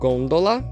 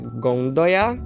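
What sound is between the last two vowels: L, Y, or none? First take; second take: L; Y. First: An L sound is heard between the final vowels. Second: A Y glide is heard between the final vowels. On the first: Some dialects say it this way. "Alguns diriam gôndola" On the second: Many dialects say it this way. "em vários dialetos é gondoia"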